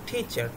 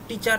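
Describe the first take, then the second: First: The first t has a strong puff of air. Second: The first t has no puff of air. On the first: The speaker calls it right. "সেটার উচ্চারণ হবে ঠয়ের মতো" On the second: The speaker calls it wrong. "টিচার না"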